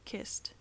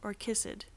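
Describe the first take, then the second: First: The ending adds no extra syllable. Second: The ending adds an extra syllable. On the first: The speaker calls it right. "pronounced like Pat" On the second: The speaker calls it wrong. "That's wrong. That's how Ingrid pronounces her words"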